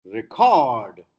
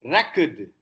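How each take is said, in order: First: "Record" as re-CORD, loud long CORD; short start, heavy lower CORD in "Record"; second-syllable stress. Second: "Record" as REC-ord, weak ending; first-syllable stress. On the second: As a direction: punch REC in "Record" for the noun. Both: Shown as a demonstration. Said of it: "stress moves from first to the second".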